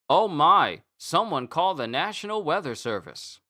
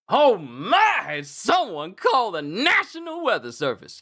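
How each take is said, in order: First: It is said flatly with little energy. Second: It is said with lively energy and emphasis. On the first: The speaker calls it wrong. "That doesn't sound like someone who just came out of a winning game" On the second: The speaker calls it right. "You could put emphasis on it"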